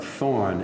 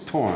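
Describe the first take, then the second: First: The word begins with a soft 'th' sound. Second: The word begins with a hard 't' sound. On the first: The speaker calls it wrong. "It would be pronounced like thorn in English" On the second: The speaker calls it right. "but it's torn"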